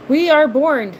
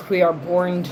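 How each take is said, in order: First: We are born, belted out louder and higher; mock-proud announcement about being from Jersey; proclamation. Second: We are born, in a lower put-on voice; jokey lower voice about Jersey speech. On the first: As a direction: announce it like a grand declaration. Joking about Jersey speech. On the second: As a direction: drop into a mock dramatic character voice.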